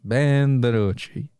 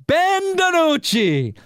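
First: Low, slow, flat-voiced name; low deadpan drawl. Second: High, slow, stretched-out name call; drawn-out mock fanfare. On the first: Host repeats the meme quarterback's name, low and slow. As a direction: let the name sink like a punchline. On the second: Host hypes the obscure backup quarterback's name, high and drawn out. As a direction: announce him like a big star, as a joke.

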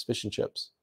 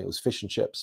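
First: Breathy whispered repeat, much softer; whispered echo. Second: Said in the usual way. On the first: Real, not acted. Recalling what the relatives served, whispered. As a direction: whisper it back to yourself, almost unvoiced.

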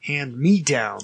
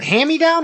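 First: Hand-me-down with hand and me kept apart; corrected pronunciation. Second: Hand-me-down run together as "hammy-down"; slurred pronunciation. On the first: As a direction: sound the N-D, then "me", in Hand-me-down. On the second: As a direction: drop the N-D in hand-me-down, saying "hammy-down". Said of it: "Is it hand-me-down or handy-down". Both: Shown as a demonstration.

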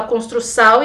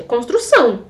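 First: "construção" ending in a non-nasal "sau"; foreigner's mispronunciation. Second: Said in the usual way. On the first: Retold or imitated. Gringo speaking Portuguese in Brazil, "construção" mispronounced as "construsau". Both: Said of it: "Gente, é construção".

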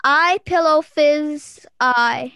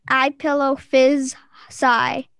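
First: I pillow fizz eye read slowly word by word; drawn-out puzzle read; slow sounding out. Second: I pillow fizz sigh spoken slowly with a clear sigh; deliberate slow hint reading; slow sounding out. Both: Shown as a demonstration. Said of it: "I don't say that one".

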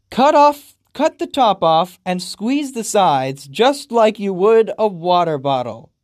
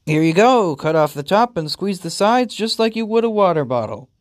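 First: "cut the top off" loud and high, each phrase punched; incredulous emphatic repeat. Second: Lightly voiced chipper instruction; a raised, breezy how-to delivery; owner handing over. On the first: Retold or imitated. Player repeats game's odd sentence, incredulously emphatic. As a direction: hammer out "squeeze the sides" loudly in disbelief. Repeats absurd line in disbelief. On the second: Owner explains feeding to pet, helpfully.

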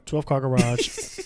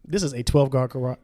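First: Twelve car garage said slowly, word by word; stress on twelve car garage. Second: Said in the usual way. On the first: Shown as a demonstration. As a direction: drag out twelve car garage with a rising end.

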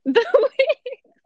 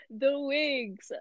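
First: Said through a burst of laughter, pitched up; giggling at the memory of the wigs; laughing. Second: Said in the usual way. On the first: Real, not acted. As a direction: laugh the words out in disbelief.

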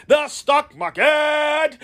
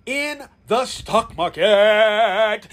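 First: Slow, drawn-out shout for the crowd to repeat; call-and-response shout. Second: Said in the usual way. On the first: Shown as a demonstration. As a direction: belt it out slowly so they say it with you. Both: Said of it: "Can you say it with me?".

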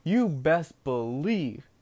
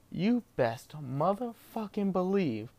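First: Slow, deliberate "You best believe"; slow build-up. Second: "motherfucking" dragged out slow and higher; slow heavy emphasis. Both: Real, not acted.

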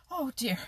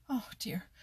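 First: High, louder frightened cry; terrified mouse crying out; panting. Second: Breathless frightened whisper; scared little mouse, whispering; panting. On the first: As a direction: blurt it out in rising panic. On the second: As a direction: gasp it out under your breath like a hunted mouse. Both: A narrator's reading. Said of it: "panted Danny Meadow Mouse".

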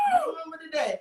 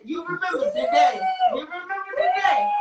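First: Said in the usual way. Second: Hammed-up tearful yell; mock pleading cry. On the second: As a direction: wail it like a hurt friend. Pleading reminder to friend.

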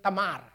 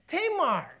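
First: "Tamar" said ta-MAR with short first vowel; Filipino pronunciation. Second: "Tamar" said TAY-mar, falling from a high first syllable; English pronunciation. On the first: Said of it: "we in Filipino, we pronounce it". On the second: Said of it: "your pronunciation". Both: Shown as a demonstration.

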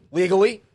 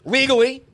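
First: High emphatic repeat. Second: High, loud correction; emphatic. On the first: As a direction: say it again with force. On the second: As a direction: punch it out high. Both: Real, not acted.

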